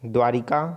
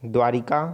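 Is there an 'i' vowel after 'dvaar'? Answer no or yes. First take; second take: yes; yes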